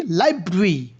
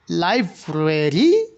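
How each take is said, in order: First: লাইব্রেরি in two syllables, "laib-ri"; syncope, shortened pronunciation. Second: লাইব্রেরি drawn out slowly, "lai-bre-ri"; full pronunciation. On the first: Teacher shows how it's pronounced, লাইব্রেরি as "laibri". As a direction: drop the middle e in লাইব্রেরি: "laibri". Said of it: "যেটাকে pronounce করা হয় কি". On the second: Teacher introduces the full word to students, লাইব্রেরি slowly spelt out. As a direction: stretch every syllable of লাইব্রেরি slowly. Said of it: "লাইব্রেরি না বলে". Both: Shown as a demonstration.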